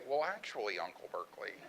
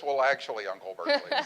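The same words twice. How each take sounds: First: Correcting niece. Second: Mock subtitle, laughing. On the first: Retold or imitated. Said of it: "and Mary would say". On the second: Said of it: "we were gonna subtitle this".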